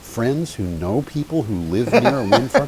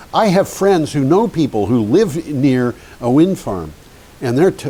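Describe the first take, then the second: First: Higher, puzzled echo of a claim; retold incredulous thought. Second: Emphatic, louder mock-indignant quote; retold livid man. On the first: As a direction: repeat it back in mild disbelief. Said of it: "And I thought". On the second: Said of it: "a man who was just livid".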